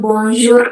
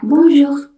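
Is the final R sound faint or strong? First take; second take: strong; faint. First: The final R is pronounced strongly and clearly. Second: The final R is pronounced only faintly. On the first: The speaker calls it wrong. "bukan bonjour R-nya bold" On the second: The speaker calls it right. "dibacanya cuma samar-samar aja"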